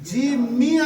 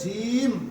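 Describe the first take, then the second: First: The word ends with a short vowel sound. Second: The word ends on a bare consonant. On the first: "এখানে জিম মি আছে না" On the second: "থামলে এখানে হয়ে যাবে জিম"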